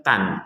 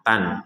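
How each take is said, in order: Both takes have the same delivery.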